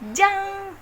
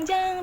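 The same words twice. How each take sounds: First: The j is pressed hard and tight. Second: The j is soft and relaxed. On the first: The speaker calls it right. "tapi jang. Ada tekanannya dulu" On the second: The speaker calls it wrong. "bukan jang jang jang jang"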